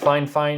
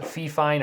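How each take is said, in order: First: The first word sounds like 'fine'. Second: The first word sounds like 'fee'. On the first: This is how the company says the name. The speaker calls it right. "They told me it is pronounced Fine Fine" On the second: This is how the spelling seems to read. The speaker calls it wrong. "it looks like it's pronounced Fee Fine"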